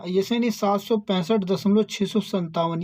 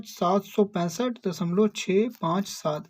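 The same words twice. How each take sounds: First: "दशमलव छः सौ संतावन" read as a whole number after the point; the wrong way: "छः सौ संतावन" as one number. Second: After "दशमलव" each digit apart: "छः पाँच सात"; the right way: "छः पाँच सात" digit by digit; correct reading. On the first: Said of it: "ये गलत हो जाएगा". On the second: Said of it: "इस तरह पढ़ते हैं". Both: Shown as a demonstration.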